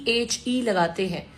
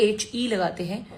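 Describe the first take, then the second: No difference in how they are said.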